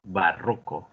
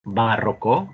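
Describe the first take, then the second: First: "Barroco" as ba-RRO-co; middle-syllable stress. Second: "Barroco" as BÁ-rro-co; first-syllable stress. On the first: Teacher repeats a student's answer, "Barroco" as ba-RRO-co. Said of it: "¿Cómo se pronuncia esta tercera palabra?". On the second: Teacher repeats another student's option, "Barroco" as BÁ-rro-co. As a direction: put the weight on BA in "Barroco". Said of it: "es otra opción". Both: Shown as a demonstration.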